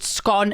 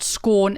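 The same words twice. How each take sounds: First: The vowel is short, rhyming with gone. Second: The vowel is long, rhyming with corn. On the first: The speaker calls it right. "as in gone" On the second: The speaker calls it wrong. "and not scone as in corn"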